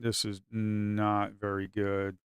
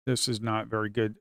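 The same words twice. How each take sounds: First: Slow, drawn-out disappointed remark. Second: Said in the usual way. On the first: Shown as a demonstration. Trader to viewers, slowly lamenting the bad position. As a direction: stretch each word out, deflated.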